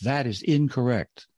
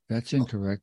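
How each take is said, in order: First: It is said with a little extra emphasis. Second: It is said plainly, without extra emphasis.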